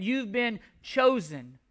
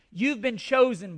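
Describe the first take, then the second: First: "chosen" set apart by a pause, said slowly; slow down and hold back "chosen" so it lands; emphatic repeat. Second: Said in the usual way. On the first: Real, not acted. Preacher telling believers to let it sink in, emphatic repeat. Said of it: "Let that sink in".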